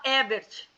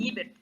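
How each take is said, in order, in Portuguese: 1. A primeira vogal soa como eh. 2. A primeira vogal soa como ee. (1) "aqui a gente fala Ebert" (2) "a pronúncia é Ibert, como se fosse alemão"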